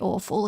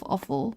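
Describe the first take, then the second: First: It is said in a different regional accent. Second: It is said in the speaker's usual accent. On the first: "if you've got a particular accent, that would say awful" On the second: "instead of awful"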